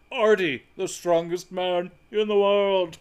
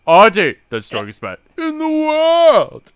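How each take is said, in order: First: Slower, proud showman intro; strongman announcer voice. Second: Much higher, much louder booming intro; proud strongman bellow. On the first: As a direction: present him like a circus strongman. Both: Retold or imitated. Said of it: "You did the voice and everything".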